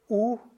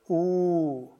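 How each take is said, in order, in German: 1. Der Vokal wird kurz gehalten. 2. Der Vokal wird etwa doppelt so lang gehalten. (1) "Erst kurz" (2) "der zweite Vokal ist immer die Verlängerung des vorigen"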